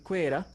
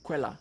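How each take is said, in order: First: The middle consonant is an R sound. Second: The middle consonant is an L sound. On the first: This is the traditional form of the word. "from the traditional Ruchiga word, it would have been Quera" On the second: This is the modern, easier form of the name. "we just say Quella because it's easier"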